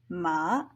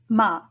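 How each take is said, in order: First: It is said with the third tone. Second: It is said with the fifth tone. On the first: It means horse. "third one, horse" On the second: It marks a question. "Using the fifth tone on the syllable makes it an interrogative particle"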